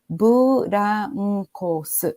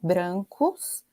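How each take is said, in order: First: A vowel is inserted between b and r. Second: It begins with a consonant cluster 'br'. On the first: "vai ser transcrita para o katakana ... como burancos" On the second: "uma palavra como brancos"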